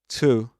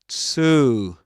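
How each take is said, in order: First: The vowel is a short u sound. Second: The vowel is a long oo sound. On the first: "this is pronounced as u" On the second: "with a long oo"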